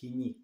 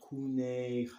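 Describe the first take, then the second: First: It is said with the modern Greek pronunciation. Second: It is said with the Erasmian academic pronunciation. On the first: The speaker calls it right. "People trying to pronounce it Kini" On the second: The speaker calls it wrong. "it's not Kune. However, Erasmus mispronunciation"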